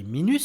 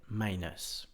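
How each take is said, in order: First: Minus said the French way, "mee-nuss" with a French u; French-style minus. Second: Minus as "MY-nus" with stress on the first syllable; a soft, low minus, "MY" first and strong; English minus. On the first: Teacher giving the wrong French-style minus as a contrast. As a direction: minus read as if it were a French word. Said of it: "si on devait le prononcer à la française". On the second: Teacher giving the correct English minus after the French one. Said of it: "l'accentuation qui se fait sur la première syllabe". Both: Shown as a demonstration.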